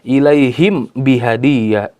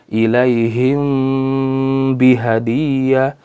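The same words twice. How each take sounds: First: The m is said clearly and separately. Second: The m is hidden with a held nasal hum. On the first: The speaker calls it wrong. "Tidak dibaca dengan izhar ya" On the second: The speaker calls it right. "dibaca dengan samar-samar antara izhar dan ikhfa yang disertai dengan gun gunnah"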